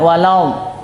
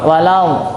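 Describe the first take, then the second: Both takes have the same delivery.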